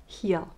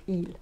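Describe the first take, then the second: First: Heel with a sounded H at the start; heel, H carefully sounded; H pronounced. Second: Heel said like eel, no H; H dropped. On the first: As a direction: say heel with a clear breathy H. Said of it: "heel, not heel". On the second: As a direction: drop the H from heel, French style. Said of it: "we don't pronounce the H". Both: Shown as a demonstration.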